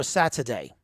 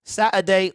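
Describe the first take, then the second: First: Second, contrasting British take on Saturday; Saturday in the other British accent. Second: First British take on Saturday; Saturday in one of two British accents. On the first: Streamer asking chat to choose, second British accent. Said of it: "the proper one or like the Michael Caine". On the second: Streamer asking chat to choose, first British accent. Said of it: "which British accent y'all like the best". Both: Shown as a demonstration.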